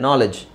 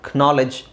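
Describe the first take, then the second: First: The word begins with an n sound, no k. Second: The word begins with a pronounced k sound. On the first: This is how it is said today. "ಅದು ಈಗ ಹಿಂಗಾಗಿದೆ" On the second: This is how it was said in very old English. "ಕೆ ಮೊದಲು pronounce ಮಾಡ್ತಾಯಿದ್ರು ... ಕ್ನಾಲೆಡ್ಜ್ ಅಂತಲೇ ಹೇಳ್ತಾ ಇದ್ರು ಮುಂಚೆ"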